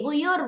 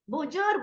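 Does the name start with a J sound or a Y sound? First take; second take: Y sound; J sound. First: The name is said with a Y sound. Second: The name is said with a J sound. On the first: "Lari ke Y" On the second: "Z dilarikannya ke Jim"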